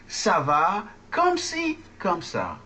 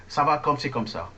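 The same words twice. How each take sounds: First: Slow, word-by-word French, high on "ci"; slow model. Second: Quick, run-together French phrase; fast Parisian. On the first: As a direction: spell out the phrase for learners to repeat. Teacher models slowly for repeating. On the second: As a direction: rattle it off like a fast-talking Parisian. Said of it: "people speak very, very fast". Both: Shown as a demonstration.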